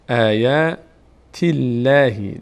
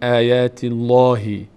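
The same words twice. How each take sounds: First: The L in Allah sounds thin and light. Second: The L in Allah sounds full and heavy. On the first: The speaker calls it right. "آن وقت باریک خوانده میشه" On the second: The speaker calls it wrong. "نمیگیم"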